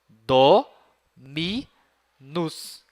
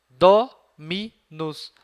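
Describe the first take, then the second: First: The word is broken into three separate syllables. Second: The word is said smoothly without breaks.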